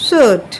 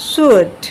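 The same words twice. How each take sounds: The two takes are said the same way.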